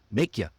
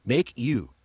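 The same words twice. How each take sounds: First: YA short and weak, linked onto Make; reduced form. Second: YOU with a full oo vowel; full form. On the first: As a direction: run Make ya together as one word. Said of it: "See what I just did there?". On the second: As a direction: say Make you as two clear words. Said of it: "I said make ya". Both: Shown as a demonstration.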